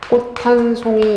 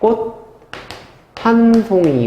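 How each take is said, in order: First: An aspirated t links the first two words. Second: The first word ends in a plain t sound. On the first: "축약이 되죠" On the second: "디귿을 바꿔줘야죠"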